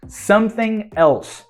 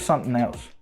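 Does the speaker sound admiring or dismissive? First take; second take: admiring; dismissive. First: It is said in an admiring, impressed tone. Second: It is said in a dismissive, unimpressed tone. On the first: The person is really good. "that is that the person is really good at something" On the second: They are not so good. "That means they're not so good"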